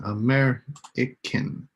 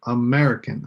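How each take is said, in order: First: "American" drawn out slowly, MER leaned on; slow stress on MER. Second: "American" with a falling tune, weight on MER; stress on MER. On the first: Teacher repeating the word slowly so students hear the stress. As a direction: stretch "American" to show its stress. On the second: Teacher marking the stress syllable for the class, falling tune. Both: Shown as a demonstration. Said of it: "put a little star on each one that has the stress syllable".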